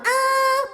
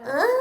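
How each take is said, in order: First: The sound is full and clear, not breathy. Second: The sound is gentle and breathy.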